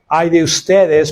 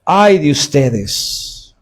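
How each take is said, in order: First: Said in the usual way. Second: "Ay de ustedes" muy lento, con el "Ay" alargado como en un funeral; lamento fúnebre. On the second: Shown as a demonstration. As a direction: arrastra "Ay" como un quejido de duelo. (lamento lento y fúnebre) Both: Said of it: "ah, fúnebre".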